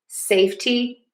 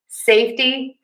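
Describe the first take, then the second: First: The t is a clear, crisp stop. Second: The t is a quick, soft flap. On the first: "but you can also say a T" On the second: "I'm saying a flat T here"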